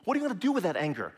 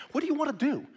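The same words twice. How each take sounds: First: Rushed, level pressing question; quick, insistent follow-up question. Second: Asked high and bright, the word you leaned on; high questioning. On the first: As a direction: fire it off fast to press the point. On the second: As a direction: pitch the question up high as if asking the angry self. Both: Shown as a demonstration. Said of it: "What kind of result do you actually want?".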